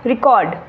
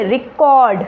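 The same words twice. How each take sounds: First: record said lower and short, falling; shorter, lower take. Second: record said strongly with the end stretched; stressed, drawn out. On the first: Teacher showing one word said differently, lower and shorter. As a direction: drop record down, without stretching it. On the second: Teacher showing one word said differently, stretched and stressed. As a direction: lean hard into record and lengthen it. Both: Shown as a demonstration. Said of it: "एक ही शब्द को हम अलग-अलग तरीके से".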